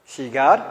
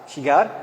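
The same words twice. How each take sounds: No difference in how they are said.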